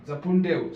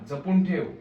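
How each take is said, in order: Both takes have the same delivery.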